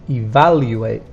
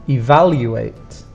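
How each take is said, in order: The two takes are said the same way.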